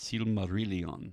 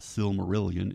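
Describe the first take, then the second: First: The ending is said like in Necronomicon. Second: The ending is said like the word million. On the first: The speaker calls it right. "It's sort of like when you say Necronomicon" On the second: The speaker calls it wrong. "it's not pronounced Silmarillion like we say million"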